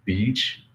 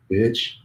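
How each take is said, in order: First: BEACH with a long ee vowel; careful pronunciation. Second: BITCH with a short ih vowel, pitched higher; mispronunciation example. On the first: English teacher showing the classic example, careful BEACH with long ee. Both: Shown as a demonstration. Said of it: "if you say them wrong".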